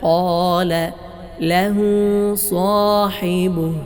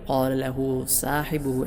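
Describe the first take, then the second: First: The s is heavy, with a raised tongue. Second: The s is light, like a plain s. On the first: The speaker calls it right. "صا സ്വാദാണ്, തഫ്ഖീം കൊടുക്കണം" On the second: The speaker calls it wrong. "സീനായിട്ടല്ല ഓതേണ്ടത്"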